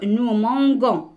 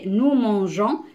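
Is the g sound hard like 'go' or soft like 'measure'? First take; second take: hard; soft. First: The g is hard, like the g in go. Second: The g is soft, like the s in measure. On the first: The speaker calls it wrong. "ça va se dire nous mangons" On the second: The speaker calls it right. "Mais non, ici, c'est nous mangeons"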